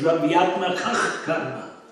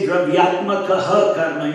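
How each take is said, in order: First: The first word ends without an added ha syllable. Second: The first word ends with an added ha syllable. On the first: The speaker calls it right. "you say" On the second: The speaker calls it wrong. "you don't say"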